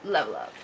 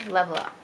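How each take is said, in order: First: Low echo. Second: Said in the usual way. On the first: Shown as a demonstration. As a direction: sink the second level up deep. Lower echo of level up.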